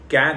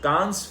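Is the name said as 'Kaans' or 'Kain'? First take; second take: Kain; Kaans. First: It has an 'ai' vowel and no final s. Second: It has a long 'aa' vowel and a final s. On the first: The speaker calls it right. "उसका असल नाम असल में कैन है" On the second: The speaker calls it wrong. "जिसको अक्सर लोग गलती से कांस फिल्म फेस्टिवल कह देते हैं"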